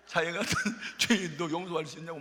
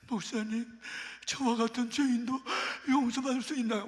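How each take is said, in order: First: 같은 said through a chuckle, light and amused; amused retelling. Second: Higher, pleading, tearful voice; tearful plea. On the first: Pastor repeating her plea to the congregation with a laugh. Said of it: "무슨 찬송가 가사 같아". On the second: Repentant woman pleading with the pastor, higher and tearful. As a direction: beg for forgiveness through tears, mildly acted. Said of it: "막 엉엉 우는 거야". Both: Retold or imitated.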